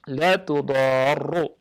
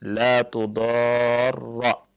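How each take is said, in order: First: The doubled r ends with a u vowel. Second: The doubled r ends with an a vowel. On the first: It is a negation: not. "bi dhammi ar-ra al-musyaddadah" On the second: It is a prohibition: do not. "bi fathir ra al-musyaddadah"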